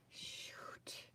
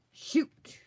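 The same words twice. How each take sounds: First: Breathy whispered shoot; a real muttered whisper of annoyance; whispered curse. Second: Sharp, loud frustrated shout; a real yell at a crafting mistake; loud curse. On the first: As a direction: hiss it under your breath. Mistake while gluing pages. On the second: Realizes wrong image. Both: Real, not acted.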